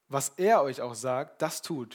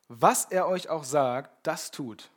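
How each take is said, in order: First: The stress falls on the word er. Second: The stress falls on the word auch. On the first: Only this one person's instruction matters, not others'. "Vielleicht kommen gleich Leute, die irgendwelche Ideen haben" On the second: Whatever the instruction is, it must be done. "Also egal, was es ist, was er euch gleich sagen wird, sei es noch so banal in euren Augen"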